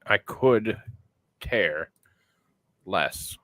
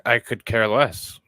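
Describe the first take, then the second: First: "I could", then "care", then "less", each set apart by long pauses; word-by-word sounding out. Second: Said in the usual way. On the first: Shown as a demonstration. Testing how the phrase sounds to the co-host, word by word with pauses. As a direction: sound it out slowly, pausing before "care" and before "less". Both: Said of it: "that sounds stupid".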